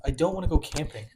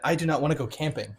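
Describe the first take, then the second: First: Said in the usual way. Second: "do not" spelled out firmly; emphatic repeat. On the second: Real, not acted. Repeating it for friends pushing camping, firm emphasis on "do not". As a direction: stress each word of "do not" in a firm refusal. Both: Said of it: "let me repeat that".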